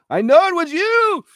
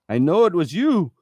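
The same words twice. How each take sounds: First: Hammed-up accusing cry, pitched way up; mock accusation, high. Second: Mock accusation. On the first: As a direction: repeat "I know it was you" much higher and louder, in a put-on voice. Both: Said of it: "reenact the phone call".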